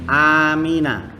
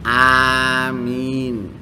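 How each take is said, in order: First: The word ends with an a vowel after n. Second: The word ends on a bare n sound. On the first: The word is joined to what follows. "Nunnya bi fathah" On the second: The word is said at a stop, not joined on.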